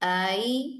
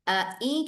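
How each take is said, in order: First: The second glottal stop is softened and smoothly blended. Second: Both glottal stops are pronounced fully and separately. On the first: "दूसरे हमजा को नरमी से पढ़ेंगे" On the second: "अ ई की जगह"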